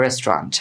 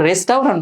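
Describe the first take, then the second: First: রেস্টুরেন্ট as "rest-rant", au silent; two syllables, "rest-rant", no "tau"; correct pronunciation. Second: রেস্টুরেন্ট as "res-tau-rant", au voiced; wrong spelt-out version. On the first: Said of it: "বলতে হবে". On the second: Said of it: "উচ্চারণ করবো তখন আবার". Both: Shown as a demonstration.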